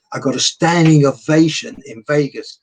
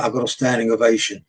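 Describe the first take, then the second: First: Louder, with stress on standing; proud emphasis. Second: Said in the usual way. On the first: Real, not acted. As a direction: lean hard into standing with pride. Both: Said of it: "repeated for emphasis".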